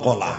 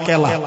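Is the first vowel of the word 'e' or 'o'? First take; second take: o; e. First: The first vowel is an 'o' sound. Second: The first vowel is an 'e' sound. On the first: This is the standard form everyone should use. The speaker calls it right. "কলা বলবেন, কলা।" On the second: This is the local regional form, heard as a slur elsewhere. The speaker calls it wrong. "দক্ষিণ দিনাজপুরের লোক কি বলে, কলা না কেলা? ... কেলা বলবেন না"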